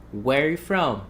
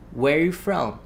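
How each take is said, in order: First: The word 'are' is left out entirely. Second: The word 'are' is left out entirely.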